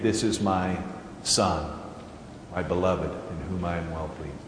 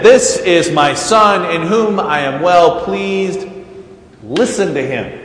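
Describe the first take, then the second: First: Much softer and lower, almost breathed; hushed reverent repeat. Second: Booming voice from heaven. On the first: Shown as a demonstration. Preacher repeating the heavenly declaration to the congregation, hushed. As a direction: let it fall away to a hush. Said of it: "that declaration is reiterated". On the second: Retold or imitated. Voice from heaven declaring to the disciples, booming. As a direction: announce it like a voice from the sky. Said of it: "the booming voice said".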